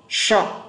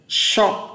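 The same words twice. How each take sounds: Both takes have the same delivery.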